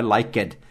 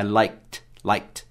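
First: Liked with a full extra syllable, like-ed; wrong pronunciation. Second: Liked in one syllable ending in a t sound, laikt; right pronunciation. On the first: Teacher shows the wrong liked, ending in a spoken -ed syllable. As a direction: say liked as two syllables, lai-ked, the wrong way. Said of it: "Não é liked". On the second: Teacher models the right liked, one syllable with a final t. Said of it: "é liked". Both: Shown as a demonstration.

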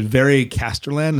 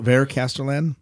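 First: "Veri Casterland", first name in two syllables; pronunciation query. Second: "Ver Casterland", first name in one syllable; pronunciation query. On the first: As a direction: say "Veri" with an ee ending before Casterland. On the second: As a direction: say "Ver" with no ee ending before Casterland. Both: Shown as a demonstration. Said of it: "how do you pronounce this".

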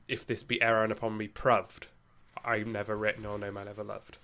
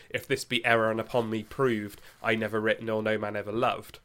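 First: Shakespeare's original pronunciation, West Country lilt. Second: Said in the usual way. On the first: Shown as a demonstration. Podcast host demonstrates how the couplet sounded in Shakespeare's time, in a light West Country original pronunciation. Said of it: "it becomes". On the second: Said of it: "as we would say".

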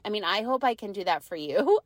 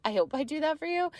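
First: Said in the usual way. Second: Laughing through it, higher. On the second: Real, not acted. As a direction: giggle the repeat out quickly.

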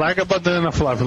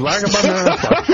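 First: Said in the usual way. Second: Repeated louder and higher; louder teasing call. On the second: Acted. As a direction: shout it again with a laugh.

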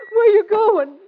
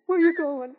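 First: Raised voice. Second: Said in the usual way. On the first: Acted. Repeats louder.

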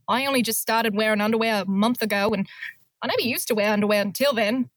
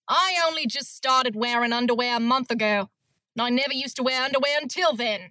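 First: Put-on a faint Australian accent, hardly bitter; a half-hearted bitter Australian woman; a mild hint of a bitter Australian accent, rushed at the end. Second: Put-on a bitter Australian accent with a little more bite; a lightly played bitter Australian woman. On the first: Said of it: "I wasn't very bitter". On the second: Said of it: "That was better than".

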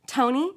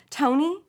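First: Said in the usual way. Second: Calling the name a bit louder, rising; mother calling her son again, a touch louder. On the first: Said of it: "she speaks into the telephone". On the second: A narrator's reading. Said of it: "says louder".

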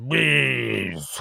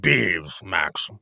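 First: Bees blurred into beef; swollen lip. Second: Lips too puffy to say bees; swollen lip. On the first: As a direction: lips too puffy for clear words. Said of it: "I don't know". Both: Real, not acted.

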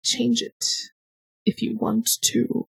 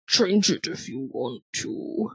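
First: Said in the usual way. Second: Low, slow voice. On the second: Shown as a demonstration. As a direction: lower and slower, drawn out. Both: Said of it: "I have no idea what that's gonna sound like".

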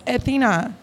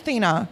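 First: "Athena" with an opening A syllable; extra first syllable. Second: "Athena" cut to THEE-na; dropped first syllable. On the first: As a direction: say "Athena" in three syllables, A-THEE-na. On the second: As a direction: say "Athena" without the opening A. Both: Real, not acted. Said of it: "No, just Athena".

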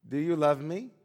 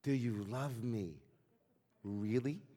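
First: Raised voice, louder, rising at the end; drunken question. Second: Slow, softer, drawn-out asking; insistent question. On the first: Drunk peasant asks his friend over vodka, loud questioning. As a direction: ask it like a tipsy peasant wanting an answer. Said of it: "in a slurred, drunken drawl". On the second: Ivan asks his best friend once more, slow and insistent. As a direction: press for a sincere answer, slowly and quietly. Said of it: "insisted Ivan". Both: Retold or imitated.

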